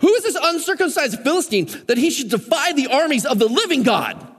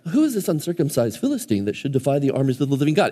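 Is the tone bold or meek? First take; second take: bold; meek. First: It is said boldly, like a brash war cry. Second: It is read meekly, without force.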